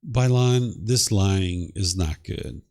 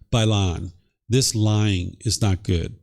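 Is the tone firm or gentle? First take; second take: gentle; firm. First: It sounds gentle, light and jovial. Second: It sounds firm and serious, without anger. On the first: "this is just like gentle and jovial" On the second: "I've just firmed it up a little bit"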